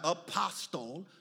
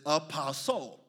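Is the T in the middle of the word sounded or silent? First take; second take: sounded; silent. First: The T in the middle is pronounced. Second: The T in the middle is not pronounced. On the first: The speaker calls it wrong. "It's not apostle" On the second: The speaker calls it right. "It is apostle"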